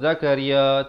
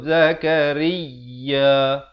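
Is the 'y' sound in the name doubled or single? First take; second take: single; doubled. First: The 'y' sound is short and single. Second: The 'y' sound is held and doubled. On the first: The speaker calls it wrong. "Zakaria tak betul" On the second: The speaker calls it right. "Zakariya baru betul. Ya itu bersabdu"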